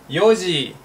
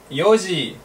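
No difference in how they are said.

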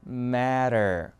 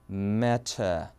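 First: American accent, with a flapped t and an r. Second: British accent, with a clear t and no r. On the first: "미국에서는 matter" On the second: "T 발음 그대로 살려요. 그리고 R은 뺍니다"

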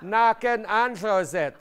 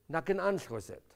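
First: It is said slower and louder. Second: It is said at a normal pace and loudness.

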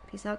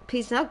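First: It is said with low energy. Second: It is said with high energy.

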